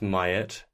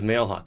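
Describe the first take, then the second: First: The surname is said in a Midwestern American way. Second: The surname is said plainly, as it looks. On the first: This is how people from Wisconsin or Minnesota say it. "Unless it you're from Wisconsin or Minnesota" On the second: This is the usual way the family says it. "the way it looks"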